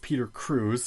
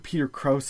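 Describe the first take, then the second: First: The surname rhymes with booze. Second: The surname rhymes with house. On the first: The speaker calls it wrong. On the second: The speaker calls it right.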